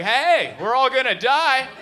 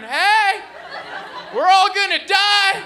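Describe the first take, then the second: First: Retold scream. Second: High, loud panicked scream. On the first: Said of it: "I was screaming things like". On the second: Retold or imitated. Comic in the stalled Uber, screaming at the driver. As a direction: scream it like the car stopped on the freeway. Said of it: "I started screaming".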